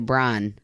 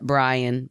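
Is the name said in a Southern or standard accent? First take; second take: Southern; standard. First: The name is said in a Southern accent. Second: The name is said in a standard accent.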